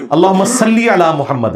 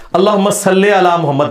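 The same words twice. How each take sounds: First: صلی said as "sallī", slightly slow; correct Arabic. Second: صلی said as "salle", Urdu majhool style; wrong reading. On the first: Giving the correct durood after the clerics' version. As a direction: recite صلی علی محمد with a clear long i. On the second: Quoting how clerics recite the durood, majhool. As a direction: read صلی علی محمد with a long e, the way clerics do. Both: Shown as a demonstration. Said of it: "یہ صلی علی تو غلط ہے".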